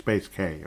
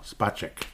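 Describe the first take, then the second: First: The name sounds like 'space' plus the letter K. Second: The name does not sound like 'space' plus K. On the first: The speaker calls it wrong. "he's Space K, you know, like Space X" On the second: The speaker calls it right.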